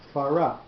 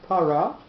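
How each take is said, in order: First: The word begins with an f sound. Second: The word begins with a p sound. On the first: The speaker calls it right. "not para, but it loses its dot" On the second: The speaker calls it wrong. "not para"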